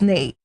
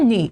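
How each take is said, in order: First: The word ends in an 'ay' vowel. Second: The word ends in an 'ee' vowel. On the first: The speaker calls it right. "it's nay" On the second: The speaker calls it wrong. "we say ni. It's not ni"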